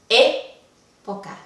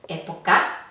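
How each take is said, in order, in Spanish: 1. El acento cae en la primera sílaba. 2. El acento cae en la última sílaba. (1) "¿Está en la antepenúltima?" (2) "¿está la intensidad en la última?"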